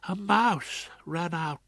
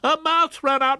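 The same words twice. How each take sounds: First: It is said quietly and softly. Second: It is said loudly, almost shouted. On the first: "in a still, small voice" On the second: "who almost shouted back"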